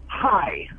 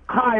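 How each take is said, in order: First: It is said in a forced whisper. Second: It is said in a normal voice.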